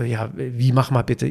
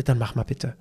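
First: Slow, questioning "wie mach mal bitte"; retold baffled echo of "mach mal bitte"; puzzled echo. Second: Said in the usual way. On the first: Trainer echoes request, baffled.

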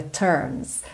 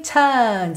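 First: "turns" softer, with the R sounded; curled American R. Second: "turns" with a long vowel and no R; non-rhotic R. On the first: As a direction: curl the tongue through the R of "turns". ("turns" com o R enrolado) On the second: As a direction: hold the vowel of "turns", tongue uncurled. ("turns" sem enrolar a língua) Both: Shown as a demonstration. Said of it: "Ele não enrola a língua".

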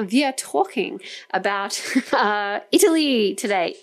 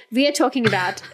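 First: Put-on German accent, "we" as "vee"; playful mock German accent. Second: Said in the usual way. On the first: Shown as a demonstration. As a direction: say it like a German speaking English. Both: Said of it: "I'm doing my German accent now".

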